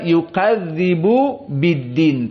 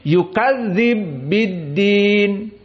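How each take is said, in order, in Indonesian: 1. Vokal setelah b dibaca. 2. Vokalnya dihilangkan dan bunyi b menyatu. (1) "Tidak bisa"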